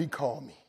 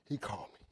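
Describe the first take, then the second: First: Said in the usual way. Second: Much softer, lower echo; hushed, moved repeat. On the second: Real, not acted. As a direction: let it sink in quietly.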